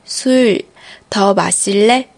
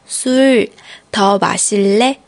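No difference in how they are said.

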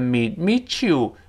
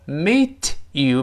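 First: The t and y blend into a ch sound. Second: The t and y sounds are said separately.

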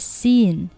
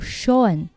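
First: It starts with 's' and has an 'ee' vowel. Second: It starts with 'sh' and has an 'aw' vowel. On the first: The speaker calls it wrong. "不要根据字面的这个读成了seen" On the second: The speaker calls it right. "S-E-A-N 读Sean"

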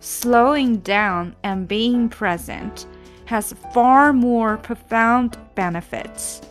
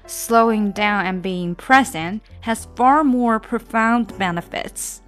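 First: The sentence is read at a slower pace. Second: The sentence is read at a faster pace.

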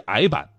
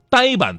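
First: The word is said in its former reading. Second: The word is said in its current reading.

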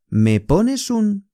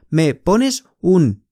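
First: The s runs straight into un. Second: The s and un are said separately. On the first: The speaker calls it right. "那个s 和u 连读" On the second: The speaker calls it wrong. "不是Me pones un"

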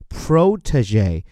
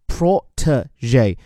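First: It is said with an American English pronunciation. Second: It is said with a British English pronunciation. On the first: "而如果是美音呢，后面部分不变，而前面这个O 字母发作O，叫做protege" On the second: "如果是英音一般念的叫protege"

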